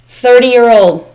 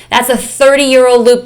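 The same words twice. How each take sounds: First: Put-on "Thirty-year-old" drawn out slowly and louder, each syllable weighted; slow emphatic repeat. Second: Said in the usual way. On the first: Shown as a demonstration.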